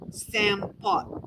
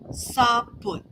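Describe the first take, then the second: First: The word has an M and an O vowel. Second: The word has no M and a U vowel. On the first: This is the speaker's own regional form. "I say Sam Pot with an M and an O" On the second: This is another region's form. "some people drop the M"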